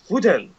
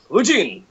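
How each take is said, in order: First: The second part sounds like 'ten'. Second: The second part sounds like 'jin'. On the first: The speaker calls it right. "you're supposed to pronounce it Futen" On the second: The speaker calls it wrong. "Fujin just sounds cooler"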